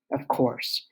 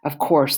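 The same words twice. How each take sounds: First: Whispered, softer bitter aside; sarcastic whispered aside; wry whisper. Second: Said in the usual way. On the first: A narrator's reading. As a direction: whisper it to yourself, resigned.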